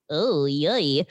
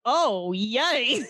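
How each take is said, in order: First: Flat, lower, deadpan "Oh, yay."; unenthused oh yay. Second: "Oh, yay." said brightly with a put-on cheer; mock cheerful. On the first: Retold or imitated. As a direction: say "Oh, yay." low and flat, with no joy. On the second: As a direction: lift "Oh, yay." as if truly delighted. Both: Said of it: "But still is not like".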